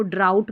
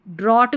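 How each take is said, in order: First: 'ड्राउट' with an OW diphthong; correct reading. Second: 'ड्रॉट' with open AW; possible misreading. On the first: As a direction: model ड्राउट, rhyming with out. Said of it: "इसको ड्राउट पढ़ना है". ('ड्राउट', आउ ध्वनि के साथ) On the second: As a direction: show misread ड्रॉट with an AW vowel. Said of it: "ड्रॉट भी तो पढ़ सकते". ('ड्रॉट', ऑ स्वर के साथ) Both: Shown as a demonstration.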